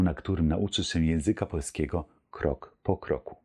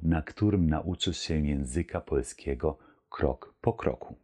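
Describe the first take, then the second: First: It is spoken at a normal, quicker pace. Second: It is spoken at a slower, careful pace.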